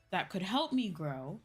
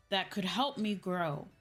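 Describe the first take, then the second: No difference in how they are said.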